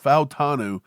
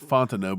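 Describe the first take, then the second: First: The name is said like 'Fau-ta-nu'. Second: The name is said like 'Fontenot'. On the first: The speaker calls it right. "but it's Fautanu" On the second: The speaker calls it wrong. "I keep saying Fontenot"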